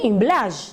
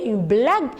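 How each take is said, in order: First: The g is said soft, like the s in measure. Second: The g is said hard, as in go. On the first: The speaker calls it wrong. "Sinon, je dois prononcer une blague. Non, le mot n'existe pas" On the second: The speaker calls it right. "j'intercale un U entre G et E pour pouvoir prononcer une blague"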